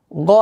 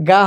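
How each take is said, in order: First: "গ" with a rounded o vowel; heavy GHAIN. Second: "গা" with an open aa vowel; thin "গা", unrounded aa instead of o; light GA. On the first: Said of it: "গ থাকবে". ("গ" মোটা, গোল অ-ধ্বনিতে) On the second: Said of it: "গা হবে না". ("গা" পাতলা, খোলা আ-ধ্বনিতে) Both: Shown as a demonstration.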